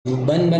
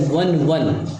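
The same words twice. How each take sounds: First: बन बन with b sounds; wrong form बन बन. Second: वन वन with v sounds; correct form वन वन. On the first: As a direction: lips closed to start each बन. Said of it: "बन बन मतलब होता है वन वन". (बन बन में "ब" की ध्वनि) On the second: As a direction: start each वन on v, not b. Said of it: "मतलब होता है वन वन". (वन वन में "व" की ध्वनि) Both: Shown as a demonstration.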